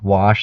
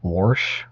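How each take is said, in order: First: It is said without an r sound. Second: It is said with an r sound.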